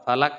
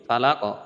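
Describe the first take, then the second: First: The word ends with a plain k sound. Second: The word ends with a deep, echoing q sound. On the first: The speaker calls it wrong. "ফালাক না, ফালাক কইলে কাফ চলে আসে।" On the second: The speaker calls it right. "বলতে আপনার কুল আউযু বিরাব্বিল ফালাক।"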